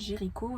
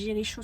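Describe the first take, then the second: First: The ch is said like English k. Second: The ch is said like English sh. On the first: The speaker calls it right. "mais il me semble que ça se prononce Jéricho" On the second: The speaker calls it wrong. "je crois que j'ai dit Jéricho sur Instagram, parce que c'est C H O"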